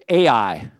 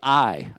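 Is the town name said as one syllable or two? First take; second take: two; one. First: The name is said with two syllables. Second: The name is said as one syllable, like 'eye'. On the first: The speaker calls it wrong. "I always say Ai. I've always said it wrong" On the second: The speaker calls it right. "It's actually I"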